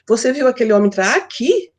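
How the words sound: The emphasis falls on the words entrar aqui. The question is whether he came into this place. "Eu quero saber se ele entrou aqui, no lugar"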